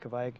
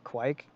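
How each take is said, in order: First: The word begins with a clear V sound. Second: The word begins with a W-like sound. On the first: The speaker calls it right. "I just say Kvaik" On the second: The speaker calls it wrong. "they might lazily pronounce the V and it sounds like a W"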